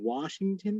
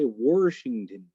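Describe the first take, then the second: First: The first syllable has no R sound. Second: The first syllable has an added R sound. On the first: The speaker calls it right. "instead of saying Washington" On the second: The speaker calls it wrong. "I don't know where they get the R"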